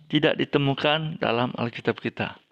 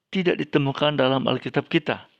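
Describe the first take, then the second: Both takes have the same delivery.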